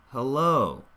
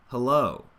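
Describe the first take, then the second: No difference in how they are said.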